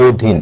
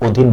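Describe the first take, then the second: First: "অধীন" said as oh-dhin; closed o-vowel. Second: "অধীন" begun with open "aw"; rejected open vowel. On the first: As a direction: round the first vowel of "অধীন" to "oh". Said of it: "ও এর মতো উচ্চারণ হচ্ছে". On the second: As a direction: say "অধীন" as aw-dhin, the wrong form. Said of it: "এখানে অধীন না". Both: Shown as a demonstration.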